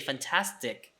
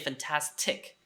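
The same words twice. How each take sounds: First: The final t has no puff of air. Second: The final t has a puff of air. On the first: The speaker calls it right. "you say fantastic ... So the T at the end does not have an aspiration" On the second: The speaker calls it wrong. "you don't say fantastic"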